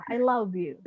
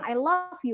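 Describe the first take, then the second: First: "love" said as "lav", ending in voiced v. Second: "love" said as "laf", ending in f. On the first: Teacher showing the sincere I love you, v-ending. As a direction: keep the buzzing v at the end of "love". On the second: Teacher warning girls about a mocking I love you, f-ending. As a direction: end "love" on a voiceless f, like "laf". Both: Shown as a demonstration. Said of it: "Dengerin dulu bunyinya wah apa fah".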